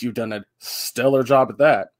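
It is said in a sarcastic tone. The praise seems mocking and not meant. The speaker calls it wrong.

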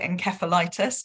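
It is said with a British pronunciation. "in the UK, we like to be different, so we call it encephalitis"

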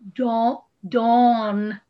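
It is said in a General American accent. "code switch and be a regular American"

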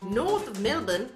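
It is said imitating an Australian accent.

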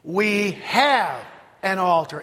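The stress falls on the word have. "Emphasis on have"

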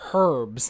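The word starts with an audible h sound. The speaker calls it wrong. "They say natural herbs"

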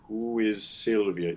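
The hissing sound runs unbroken from 'is' into 'Sylvia'. The speaker calls it right. "The fricative can keep going through. It just loses voicing"

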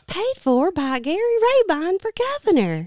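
The voice is soft, light and girlish. "I did do it soft"

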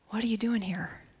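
It sounds gentle and compassionate.

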